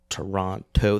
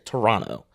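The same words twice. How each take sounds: First: The second T is clearly pronounced. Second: The second T is dropped, like Toronno. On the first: The speaker is American. "They always pronounce the second T" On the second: The speaker is Canadian. "most Canadians just say"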